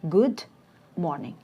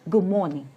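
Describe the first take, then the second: First: Good ends with a clear d sound. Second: Good ends with a b sound before morning. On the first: "Two words" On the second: "in connected speech, it becomes like"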